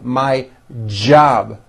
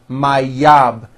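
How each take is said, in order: First: The word starts with a strong j sound. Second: The word starts with a y sound. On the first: The speaker calls it right. "always my job with a strong J sound" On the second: The speaker calls it wrong. "It's never yob"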